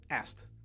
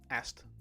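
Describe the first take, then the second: No difference in how they are said.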